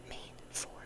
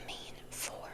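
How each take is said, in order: Both takes have the same delivery.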